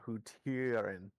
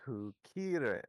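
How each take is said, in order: First: The middle consonant is a T sound. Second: The middle consonant is a K sound. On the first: The speaker calls it wrong. "not Hutirin" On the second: The speaker calls it right. "it's Hukirin"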